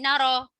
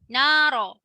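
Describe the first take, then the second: First: The final vowel is cut short quickly. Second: The final vowel is held for two beats. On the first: The speaker calls it wrong. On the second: The speaker calls it right. "Masuk panjang sikit dua harakat"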